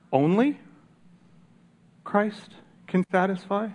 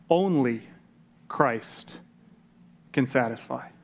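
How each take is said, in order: First: High rising skeptical echo; doubtful question. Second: Falling, settled quote of the answer; firm statement. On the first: Real, not acted. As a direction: question it, as if hard to believe. Questioning the quote just given. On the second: Retold or imitated. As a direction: say it as a flat final fact. Quoting Rockefeller's firm answer.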